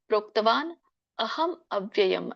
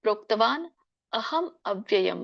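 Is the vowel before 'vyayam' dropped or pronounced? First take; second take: pronounced; pronounced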